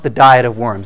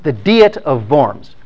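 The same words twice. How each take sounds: First: Worms sounds like the English word for worms. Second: Worms is said as a German place name. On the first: It names a weight-loss diet of worms. The speaker calls it wrong. "it's not pronounced the diet of worms" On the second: It names an assembly held in a German city. The speaker calls it right. "It's pronounced the diet of worms. Worms is a city in the Rhineland in Germany"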